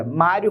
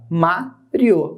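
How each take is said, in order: First: Said in the usual way. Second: "Mário" split as má, rio; separado em sílabas. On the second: Shown as a demonstration. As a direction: say "Mário" in two detached syllables, má and rio. ("Mário" pausado: má, rio) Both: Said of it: "como é que eu separo?".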